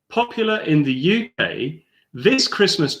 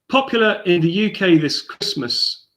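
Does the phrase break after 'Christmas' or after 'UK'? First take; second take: after UK; after Christmas. First: The phrase breaks with a pause after 'UK'. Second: The phrase ends and falls after 'Christmas'. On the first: This Christmas belongs to the drink being described. The speaker calls it right. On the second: This Christmas is when it is popular. The speaker calls it wrong.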